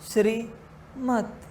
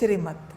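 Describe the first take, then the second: First: The word is split with a break in the middle. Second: The word is said smoothly without a break. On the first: The instruction has been subtly altered. The speaker calls it wrong. "माया कहेगी श्रीमत... बस अलग किया है, शब्द के बीच में बस भेद" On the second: It is the true instruction. The speaker calls it right. "जैसे बाबा कहता है श्रीमत"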